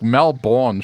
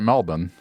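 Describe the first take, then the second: First: The second syllable is a full 'bourne'. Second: The second syllable is a reduced 'buhn'. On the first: This is how the spelling reads. "Melbourne should be correct" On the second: This is how locals actually say it. "we pronounce it Melbourne"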